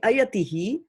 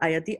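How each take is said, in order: First: The word ends with an added 'hi' syllable. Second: The word ends without an echoed final syllable. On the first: The speaker calls it right. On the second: The speaker calls it wrong. "not ayati"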